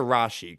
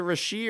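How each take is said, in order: First: "Rashi" as RAH-shee; Rashi pronunciation. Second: "Rashee" as ruh-SHEE; Rashee pronunciation. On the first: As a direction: say "Rashi" with an open RAH first. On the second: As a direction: say "Rashee" with a light first syllable, ending in SHEE. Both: Shown as a demonstration. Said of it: "I've heard it both ways".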